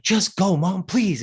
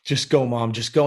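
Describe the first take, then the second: First: Higher pleading. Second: Said in the usual way. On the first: Retold or imitated. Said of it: "I'm like".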